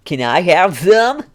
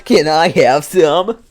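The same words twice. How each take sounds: First: High, slow, deadpan meme delivery. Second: Slow, louder deadpan meme ask. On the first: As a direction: ask like a deadpan internet meme. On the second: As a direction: do the meme line again, slowly. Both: Acted. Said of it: "that's the kind of a meme voice".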